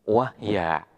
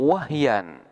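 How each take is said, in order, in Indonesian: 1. Kata ini berakhir dengan 'a' biasa. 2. Kata ini berakhir dengan bunyi 'an'. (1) "ketika dibaca waqaf akan berubah menjadi alif sehingga bacaannya menjadi wahya" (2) "terdapat tanwin yang berada pada harkat fathah"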